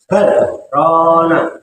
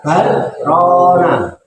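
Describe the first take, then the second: First: There is a brief stop after 'bal'. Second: It is read in one breath with no break. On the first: The speaker calls it right. "Bal itu ada saktah" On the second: The speaker calls it wrong. "jangan dibaca barona. Bal satu nafas"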